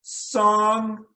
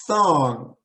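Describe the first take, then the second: First: "Song" starting on a sharp s. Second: "thong" starting with the tongue out on th. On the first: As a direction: contrast "Song" with thong. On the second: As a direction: contrast "thong" with song. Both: Shown as a demonstration. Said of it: "hear the difference very clearly".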